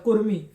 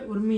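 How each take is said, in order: First: The name begins with a K sound. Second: The name begins with a vowel sound. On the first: The speaker calls it wrong. "पहले मैं भी बोलता था कुर्मी" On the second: The speaker calls it right. "कुर्मी नहीं है, उर्मी है"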